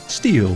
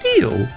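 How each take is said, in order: First: It is said at a normal pitch. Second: It is said weirdly high-pitched with odd inflection.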